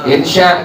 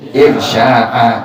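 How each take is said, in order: First: The word ends short, with no final glottal stop. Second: The word ends with a glottal stop and vowel. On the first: The speaker calls it wrong. "Orang sering baca bukan insya'a tapi apa? Insya tuh" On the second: The speaker calls it right. "Yang benar dibaca insya'a"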